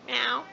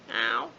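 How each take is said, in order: First: High, loud cartoon meow; a quick loud mock meow; imitated cat meow. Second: Low, loud rising meow; a low mock meow that rises at the end; imitated cat meow. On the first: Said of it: "Simon's cat". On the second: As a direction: drop the pitch low and rise on the meow. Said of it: "That's all she does".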